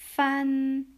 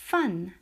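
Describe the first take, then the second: First: The syllable has a high level tone. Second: The syllable has a sharply falling tone. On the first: It means to divide or separate. "fan, 일성" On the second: It is a noun meaning component. "사성으로 쓰면 성분이 됩니다"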